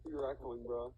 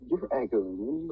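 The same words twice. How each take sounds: First: Said in the usual way. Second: Drawn-out, wavering, louder echo; mock echo. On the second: Player teasing another about the echo on their mic, mock echo. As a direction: stretch out the end like an echo. Mimics echo on second take.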